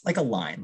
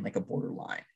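First: Said in the usual way. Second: "like a border line" breathed in a soft whisper, no voice; whispered aside. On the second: Real, not acted. Repeated phrase, voice drops away.

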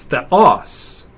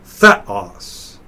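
First: Theos with the stress on "os"; stress on second syllable. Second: Theos with the stress on "the"; "theos" said THE-os, falling away; stress on first syllable. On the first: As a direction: lean on the final "os" of "theos". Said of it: "put stress on that syllable". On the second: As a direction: punch the opening "the" of "theos". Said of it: "not theos". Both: Shown as a demonstration.

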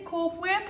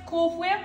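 First: Cool Whip, blowing air before the w of Whip; Misty's whip. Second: Said in the usual way. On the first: Shown as a demonstration. Showing viewers her friend's way of saying Whip, hw onset. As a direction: Whip said with a breathy hw onset, like hwip. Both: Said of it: "It's fun to say it like that".

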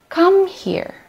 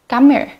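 First: Said in the usual way. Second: "Come here" as "come ere", no h; dropped h. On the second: Shown as a demonstration. Teacher showing native h-dropping in "here". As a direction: drop the h so "here" runs into "come". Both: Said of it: "Dropping the letter H".

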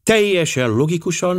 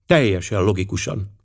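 First: "Teljesen" lifted high in a mocking echo; ironic echo. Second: Said in the usual way. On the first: Poirot echoing Miss Limon to mock the logic, ironic. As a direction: repeat "Teljesen logikusan" with raised, ironic pitch. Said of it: "mármint egy orosz számára". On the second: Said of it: "felelte Miss Limon".

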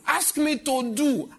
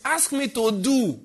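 First: "Ask me to do" slowest yet, high, loud stress on "me"; preached plea. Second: "Ask me to do" slow and loud, high, falling on "do"; preached plea. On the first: Pastor voicing God's plea, stress moving to "me". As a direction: press on "me". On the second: Pastor voicing God's plea, preached slow and loud. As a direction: lay weight on "do". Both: Real, not acted. Repeated with rising pitch.

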